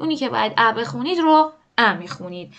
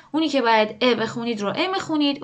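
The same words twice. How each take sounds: First: "ا" said with an open front a, as in "cat"; the a sound. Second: "ا" said with a short front e, as in "bed"; the e sound. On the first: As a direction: say each "ا" as an open æ vowel. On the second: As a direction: say each "ا" as a clear e vowel. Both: Shown as a demonstration.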